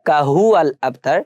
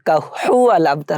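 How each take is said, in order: First: The h comes lightly from the mouth. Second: The h comes from deep in the throat. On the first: The speaker calls it right. "হবে কাহুয়াল আবতার কারণ এখানে হায় হাওয়াজ আছে ... মুখের ভিতর থেকে" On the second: The speaker calls it wrong. "আমরা অনেকে বলি কাহুয়াল আবতার বলি সো কাহুয়াল আবতার হবে না"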